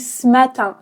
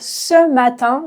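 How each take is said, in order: First: The vowel in 'ce' is dropped entirely. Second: The vowel in 'ce' is fully pronounced. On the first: "je dis ce matin, ce matin. Je mange le E" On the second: "au lieu de dire ce matin"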